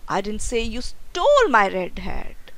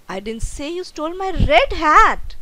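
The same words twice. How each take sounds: First: The stress is on the word stole. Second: The stress is on the word red.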